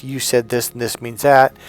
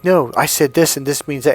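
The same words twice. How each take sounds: First: Insistent husband arguing his point; scene: husband arguing with his wife over meaning, insistent. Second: Higher, louder "No" firing back; scene: wife arguing back at her husband, louder; wife's rebuttal. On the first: Mild mock argument. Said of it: "he'll argue to death". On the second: Mock heated rebuttal. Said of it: "and you're like". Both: Retold or imitated.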